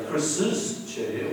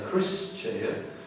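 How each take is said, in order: First: An extra S syllable follows the name. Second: No extra S syllable follows the name. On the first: The speaker calls it right. "We say Chris's chair" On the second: The speaker calls it wrong. "we don't say Chris' chair"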